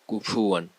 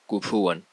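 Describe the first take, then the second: No difference in how they are said.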